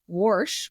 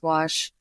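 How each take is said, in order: First: The word is said with an R sound. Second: The word is said without an R sound. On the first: ""warsh" with an R is how some people pronounce wash" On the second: "Personally, I think it's wash"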